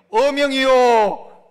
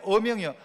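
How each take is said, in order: First: Loud, slow decree cry; full proclamation. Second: Said in the usual way. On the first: Shown as a demonstration. Preacher demonstrating the decree call to the church, loud. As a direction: bellow it out like a royal herald. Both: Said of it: "한번 해봐야 됩니다".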